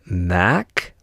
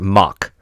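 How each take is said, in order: First: The vowel sounds like the one in 'back'. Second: The vowel sounds like the one in 'lock'. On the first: "I've heard of it Mac, like I ain't no Mac, I'm a Peterbilt" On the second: "but I've also heard Mock"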